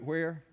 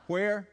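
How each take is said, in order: First: Said in the usual way. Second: Louder, higher prompt to the crowd; calling for response. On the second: Real, not acted. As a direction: call it out for everyone to answer. Prompts congregation to answer again.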